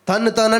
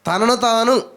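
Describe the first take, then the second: First: The first word is clipped, with its middle vowel dropped. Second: The first word is said slowly, with every syllable. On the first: It sounds like someone is going to kick. The speaker calls it wrong. "అయ్యి బాబు తన్నుతారా అన్నట్టు ఉంది" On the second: It means oneself. The speaker calls it right. "కొంచెం ఆగి ఆలోచించి పలుక"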